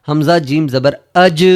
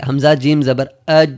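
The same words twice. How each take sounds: First: اج ending in a bouncing ج; with qalqalah. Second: اج with the ج cut flat, no bounce; without qalqalah. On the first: Teacher showing correct qalqalah on اج. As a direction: let the ج of اج echo back. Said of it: "تو یہ قلقلہ ہے". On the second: Teacher showing the wrong reading of اج. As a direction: swallow the ج of اج. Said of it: "تو یہ غلط ہے". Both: Shown as a demonstration.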